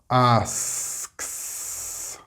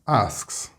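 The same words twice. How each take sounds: First: It is said slowly and with extra stress. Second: It is said quickly and naturally, without extra stress. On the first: "do it a little slower with more stress" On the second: "I am going to say them in a very natural way as a native speaker would normally pronounce them"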